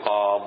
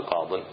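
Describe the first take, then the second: First: قاض stopped on the ض, no ي and no tanween; pausal form without the ي. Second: قاض said with the tanween sounded, as قاضٍ; wrong form. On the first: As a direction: cut قاض short on the ض. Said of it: "فحينئذ تقول". (الوقف على قاض بحذف الياء والتنوين) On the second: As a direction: add the nunation to قاض to show the mistake. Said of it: "ما تقول". (نطق خاطئ قاض بالتنوين) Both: Shown as a demonstration.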